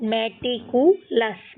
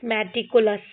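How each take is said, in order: First: मेटिकुलस split into मेटिकु, लस; syllable by syllable. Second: Said in the usual way. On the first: Shown as a demonstration. Teacher shows how all are to be read, मेटिकुलस in parts. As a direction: pause before the लस of मेटिकुलस. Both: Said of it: "इस तरीके से हमको ये सारे पढ़ने हैं".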